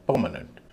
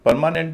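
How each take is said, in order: First: परमानेंट lower, with reduced "muh-nunt" ending; corrected pronunciation. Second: परमानेंट with long मा and full "nent"; higher परमानेंट, every syllable given full vowels; wrong pronunciation. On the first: Teacher correcting the common form, corrected pronunciation. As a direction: stress first syllable of परमानेंट, lighten the rest. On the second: Teacher showing what not to say, wrong pronunciation. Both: Shown as a demonstration. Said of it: "परमानेंट नहीं".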